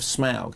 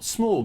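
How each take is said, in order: First: The vowel does not sound like 'or'. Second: The vowel sounds like 'or' in 'morgue'. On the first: The speaker calls it right. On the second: The speaker calls it wrong.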